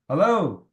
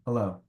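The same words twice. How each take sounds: First: The word is said loudly and energetically. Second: The word is said very quietly. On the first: It matches a louder caller. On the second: It matches a quiet caller.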